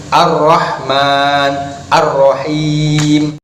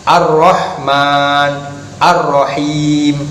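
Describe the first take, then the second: The two takes are said the same way.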